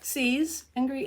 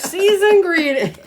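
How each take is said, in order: First: The words are said separately and distinctly. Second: The words are slurred together quickly.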